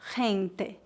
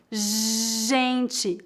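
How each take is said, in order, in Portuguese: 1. Começa com h forte, como em espanhol. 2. Começa com um som de zh contínuo e suave. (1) "nem gente" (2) "e sim gente, é um som contínuo"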